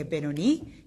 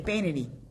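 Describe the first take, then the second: First: It is said with an Israeli accent. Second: It is said with a Canadian accent.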